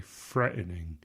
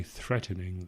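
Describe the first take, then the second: First: "threatening" said with an F, like "fretening". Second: Said in the usual way. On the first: Shown as a demonstration. Showing how English voices say it, "threatening" starts with FR. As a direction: swap the TH in "threatening" for F. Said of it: "they say threatening". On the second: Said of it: "So don't say threatening".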